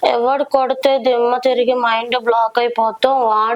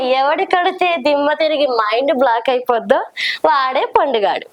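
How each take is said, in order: First: It is said in a sad, pitiful way. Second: It is said in a comic, funny way.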